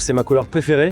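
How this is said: The pitch goes up high at the end. The speaker comes across as much less intense. The speaker calls it wrong. "quand je pars dans les aigus, je suis beaucoup moins intense"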